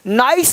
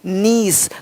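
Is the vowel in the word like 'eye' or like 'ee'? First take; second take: eye; ee. First: The vowel sounds like 'eye'. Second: The vowel sounds like 'ee'. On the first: The speaker calls it wrong. "नाइस नहीं" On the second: The speaker calls it right.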